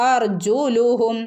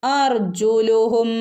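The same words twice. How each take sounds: Both takes have the same delivery.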